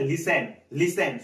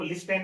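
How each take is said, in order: First: "Listen" with a silent t; correct listen. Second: "लिस्टेन" with the t sounded; mispronounced listen. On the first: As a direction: say "Listen" as LIS-en, no t sound. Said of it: "क्या पढ़ना है?". ("Listen" में ट को मौन रखकर) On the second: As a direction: say "लिस्टेन" as spelt, voicing the t. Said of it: "इसको लिस्टेन नहीं पढ़ना है". ("लिस्टेन" में ट का उच्चारण करते हुए) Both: Shown as a demonstration.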